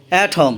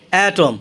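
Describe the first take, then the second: No difference in how they are said.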